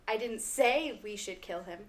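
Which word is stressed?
say. The stress is on "say".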